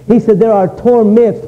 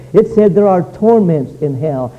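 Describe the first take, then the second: First: "torments" pressed as a plural; stress on torments. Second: Said in the usual way. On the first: Shown as a demonstration. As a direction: lean on "torments" to show there are many.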